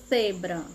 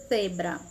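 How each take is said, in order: The two takes are said the same way.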